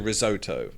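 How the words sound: It is said in an American pronunciation. "Americans say risotto"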